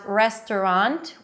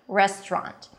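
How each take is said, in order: First: The word is said with three syllables. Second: The word is said with two syllables. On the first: "restaurant with three syllables" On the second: "I like the two syllable pronunciation"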